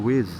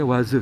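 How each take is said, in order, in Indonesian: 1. Bunyinya seperti kata bahasa Inggris 'ways'. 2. Dibaca sesuai hurufnya. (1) "ternyata yang dimaksud adalah Waze" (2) "ada orang bacanya Waze"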